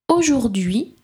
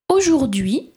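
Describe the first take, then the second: The two takes are said the same way.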